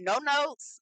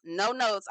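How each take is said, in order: First: Higher emphatic take. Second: Said in the usual way. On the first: Shown as a demonstration. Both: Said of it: "Ooh, I'm not mad".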